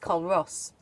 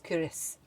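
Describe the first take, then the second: First: The name is said fully, as it is spelled. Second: The name is said in a shortened, local form. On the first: The speaker calls it wrong. "if you want to say it logically, it's Colross, but it's not" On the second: The speaker calls it right. "It's Curis, apparently"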